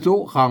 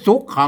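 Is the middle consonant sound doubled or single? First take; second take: single; doubled. First: The middle consonant is said once, not held. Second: The middle consonant is doubled across syllables. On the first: The speaker calls it right. "มันบ่มีสะกดนะครับ" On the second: The speaker calls it wrong. "ไม่ใช่สุขขังนะ"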